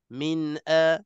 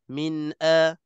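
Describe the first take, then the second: First: The n moves straight into the next vowel. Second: The n moves straight into the next vowel.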